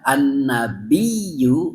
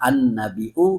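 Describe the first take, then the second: First: It ends with a doubled y sound. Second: It ends with a glottal stop sound. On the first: "dibaca dengan ya an-nabiyyu menggunakan tasdid" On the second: "baca dengan hamzah an-nabi'u maka tidak menggunakan tasdid"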